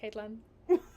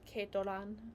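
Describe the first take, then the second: First: The name is said in an English accent. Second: The name is said in a Japanese accent. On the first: "It's just it's just Caitlin" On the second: "I was just trying to say in Japanese like Keitoran"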